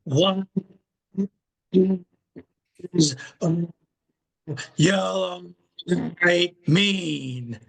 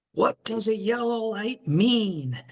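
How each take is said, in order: First: One word at a time, long pauses; drawn-out slow. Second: High-pitched call out to the guys; retold shout, pitched up without much extra volume; mock shout. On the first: Retold or imitated. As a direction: stretch each word out very slowly, as a retold joke. Taxi joke retold, question slowed down. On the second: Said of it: "he's shouting out to the guys".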